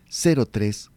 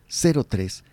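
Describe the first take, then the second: The two takes are said the same way.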